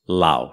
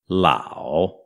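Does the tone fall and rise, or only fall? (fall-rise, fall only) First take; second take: fall only; fall-rise. First: The pitch only falls low; short and quick. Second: The pitch dips low, then rises; slow. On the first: "ele só faz a descidinha e não sobe de volta. Então ele fica curto e grave" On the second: "ele fazia aquela voltinha do terceiro tom. É até lento para pronunciar"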